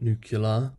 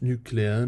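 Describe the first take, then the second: First: The word is said the speaker's regional way. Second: The word is said the widespread, common way. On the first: This is how it is said where the speaker grew up. "where I grew up, it is said nuclear" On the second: This is how most people say it. "it is pronounced nuclear"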